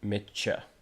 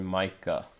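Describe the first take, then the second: First: The middle consonant is a ch sound. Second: The middle consonant is a k sound. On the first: The speaker calls it right. "it's said uh Mitcha" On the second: The speaker calls it wrong. "did I say that wrong?"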